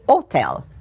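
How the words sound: The word is said with an Italian pronunciation. "they say hotel"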